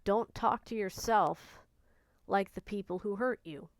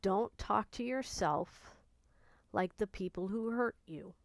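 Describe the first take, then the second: First: Slow, deliberate, each word weighted; slow, earnest emphasis; slow emphatic advice. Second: Slow and softened, stress on talk; quiet, slow insistence; slower, softer repeat. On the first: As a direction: lay it down firmly as a key point. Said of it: "I'll say it again". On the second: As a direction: repeat it gently so it sinks in. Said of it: "I'm gonna say it one more time". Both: Shown as a demonstration.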